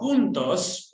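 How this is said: It is pronounced the Spanish way. "which means together in Spanish"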